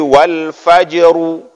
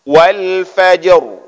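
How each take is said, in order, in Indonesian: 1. Huruf r-nya diikuti vokal tambahan. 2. Huruf r-nya tebal dan berakhir tanpa vokal. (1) "jangan sampai huruf ra itu membentuk baris. Jangan jadi wal fajru, juga salah" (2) "Ketika sampai di huruf ra kita angkat ke atas"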